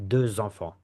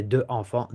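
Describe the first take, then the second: First: Deux enfants linked with Z, deu-zenfants; French liaison with Z. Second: Deux enfants with no Z, deu-enfants; French without liaison; no liaison, wrong. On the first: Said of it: "We don't say deux enfants". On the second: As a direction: leave deux and enfants apart. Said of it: "We don't say". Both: Shown as a demonstration.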